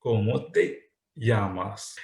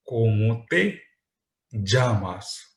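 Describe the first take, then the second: First: The Spain way, llamas with y; Spain pronunciation. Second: Llamas said as jamas, with a j sound; the Latin American way, llamas with dj; Latin American pronunciation. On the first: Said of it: "if I am from Spain". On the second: Teacher showing students the Latin American pronunciation, j sound. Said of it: "If I am from Latin American countries". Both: Shown as a demonstration.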